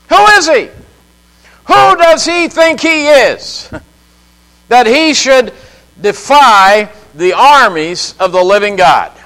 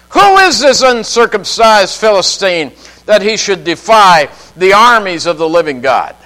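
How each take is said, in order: First: Much higher, a disbelieving challenge; indignant outburst. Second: Said in the usual way. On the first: Real, not acted. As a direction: fling the question out in outrage. Preacher repeats the question indignantly. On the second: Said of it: "he asked the question".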